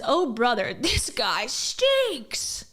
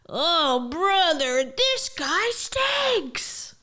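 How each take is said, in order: First: It is read in a plain, normal voice. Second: It is read in a put-on character voice. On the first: The speaker calls it wrong. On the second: The speaker calls it right.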